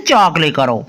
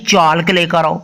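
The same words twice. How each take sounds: First: "चाक" going straight from vowel to k; silent L. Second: "चालक" with an audible l before the k; wrongly sounded L. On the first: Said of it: "सभी बोलते हैं ना". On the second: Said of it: "कभी कोई teacher बोलता है". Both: Shown as a demonstration.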